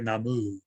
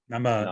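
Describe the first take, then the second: First: The final vowel is a full 'oo' sound. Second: The final vowel is reduced and barely sounded. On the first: The speaker calls it wrong. "it's not pronounced like Namu" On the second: The speaker calls it right. "It's it's like Nama ... it's not really ooh"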